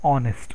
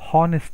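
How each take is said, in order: First: The word begins directly with a vowel. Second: The word begins with an h sound. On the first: The speaker calls it right. "ಎಚ್ is silent there, so we have to pronounce ಆನೆಸ್ಟ್" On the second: The speaker calls it wrong. "ಇಲ್ಲಿ ಕೆಲವರು ಎಚ್ O N E S ಟಿಯನ್ನು ಹಾನೆಸ್ಟ್ ಅಂತ ಹೇಳ್ತಾರೆ"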